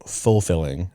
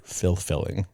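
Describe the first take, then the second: First: "fulfilling" said slowly, starting like "full"; standard fulfilling. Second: "fulfilling" pronounced "filth-filling"; misheard as filth-filling. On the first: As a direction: say "fulfilling" carefully as full-filling. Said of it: "you're saying fulfilling". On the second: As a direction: turn the start of "fulfilling" into "filth". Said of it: "it sounded like you said". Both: Shown as a demonstration.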